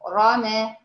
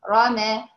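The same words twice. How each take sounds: No difference in how they are said.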